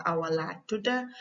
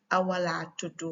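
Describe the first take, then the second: First: Gambian Wolof short reply, "tuda" ending in a; Gambian accent. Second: Senegalese Wolof short reply, "tudu" ending in u; Senegalese accent. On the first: Teacher showing the shorter reply, Gambian accent. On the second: Teacher showing the shorter reply, Senegalese accent. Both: Shown as a demonstration. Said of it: "tudu and tuda is just accent".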